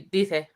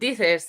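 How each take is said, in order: First: The final S sound is left out. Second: The final S sound is clearly pronounced. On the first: "they don't say the S" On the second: "instead of dices"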